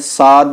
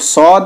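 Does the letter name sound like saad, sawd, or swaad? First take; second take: saad; sawd. First: It is said thin, with a plain open aa vowel. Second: It is said thick, with a rounded aw vowel. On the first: The speaker calls it wrong. "इसको बारीक नहीं पढ़ेंगे, साद नहीं बोलेंगे" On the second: The speaker calls it right. "ये भी मोटा पढ़ा जाता है"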